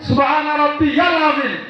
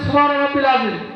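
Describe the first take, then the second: First: It is said as 'rabbiyal' with a 'ya' sound. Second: It is said as 'rabbil' without a 'ya' sound. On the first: The speaker calls it right. "শুদ্ধভাবে বলতে হবে" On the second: The speaker calls it wrong. "অনেক নামাজি যা বলে"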